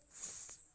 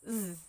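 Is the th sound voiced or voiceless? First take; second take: voiceless; voiced. First: The th sound is made without voicing. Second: The th sound is made with voicing. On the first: "The voiceless th" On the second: "The voiced th"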